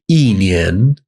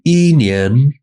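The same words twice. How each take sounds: First: The first syllable has a falling tone. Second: The first syllable has a high level tone. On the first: The speaker calls it right. "it becomes fourth tone" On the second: The speaker calls it wrong. "it's going to sound incorrect to a native speaker"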